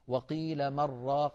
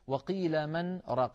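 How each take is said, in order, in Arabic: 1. النون تدغم في الراء بدون سكت. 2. توجد سكتة قصيرة تفصل 'man' عن 'raq'.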